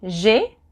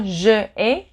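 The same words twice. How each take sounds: First: "j'ai" elided into one syllable; contracted j'ai. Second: "je ai" as two separate vowels, no elision; uncontracted je ai. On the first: French teacher gives the correct form, "j'ai" as one syllable. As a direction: run "j'ai" together as a single "zhay". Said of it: "In French, there's no je ai". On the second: French teacher shows the form that doesn't exist, "je ai" uncontracted. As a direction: keep the vowel of "je" before "ai". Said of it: "there's no je ai". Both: Shown as a demonstration.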